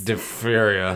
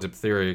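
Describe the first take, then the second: First: The word is said in a slurred, drunken-sounding way. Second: The word is said in a clear, familiar way. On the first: This is the pronunciation that follows the spelling. "It sounds like I'm 12 beers in if I say that word" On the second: This is the familiar everyday pronunciation. "It's the only way I know how to pronounce it"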